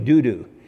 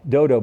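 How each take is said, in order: First: Both vowels are pronounced as 'oo'. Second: Both vowels are pronounced as 'oh'. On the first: The speaker calls it right. "but it's really Dudu" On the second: The speaker calls it wrong. "I used to say Dodo. That's what it looks like"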